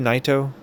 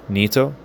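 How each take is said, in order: First: The name is said in an English-style pronunciation. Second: The name is said in a Japanese-style pronunciation. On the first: The speaker calls it wrong. "I don't think it would be Naito" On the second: The speaker calls it right. "I'm guessing we're going Japanese pronoun- pronunciation"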